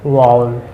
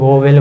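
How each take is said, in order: First: It starts with 'vow' and has no 'v' mid-word. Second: It has a clear 'o' and a 'v' mid-word. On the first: The speaker calls it right. "ये होता क्या है वाउल" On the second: The speaker calls it wrong. "इसको लोग वोवेल बोलते हैं"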